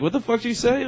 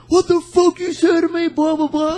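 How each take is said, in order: First: High-pitched question at ordinary volume; retold unaggressive protest; not mean. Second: Very high, loud mock drunken yell; hammed-up belligerent shout; drunk guy fired up. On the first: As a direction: challenge him without sounding mean. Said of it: "I wasn't even, like, being, like, a mean tone". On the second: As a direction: imitate an angry drunk squawking back. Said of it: "this one really, really drunk guy".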